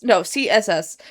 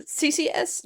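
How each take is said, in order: First: "C S S" said plainly and firmly as the fix; corrected letters. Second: "C C S" whispered as an unsure question; unsure wrong letters. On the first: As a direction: say "C S S" flatly with certainty. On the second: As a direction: whisper "C C S" doubtfully with a rising tune. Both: Shown as a demonstration.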